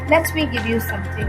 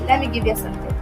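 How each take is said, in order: First: The t in let me is pronounced clearly. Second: The t in let me is dropped.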